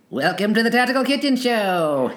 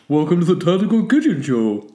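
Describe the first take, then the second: First: It is said in a SpongeBob impression. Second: It is said in a Patrick impression.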